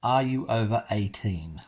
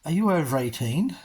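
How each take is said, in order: First: Deliberate, evenly spaced repeat; measured, spelled-out question; nice and slowly. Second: Lightly imitated ticket seller, rising; higher, brisk retold query; retold question. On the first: Shown as a demonstration. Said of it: "I'll repeat that nice and slowly". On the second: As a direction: ask it higher with a clear rise at the end. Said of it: "And she says".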